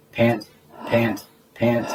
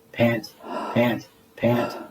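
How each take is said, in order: Both takes have the same delivery.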